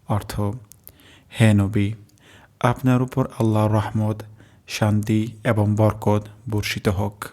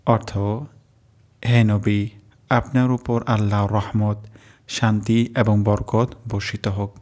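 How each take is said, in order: Both takes have the same delivery.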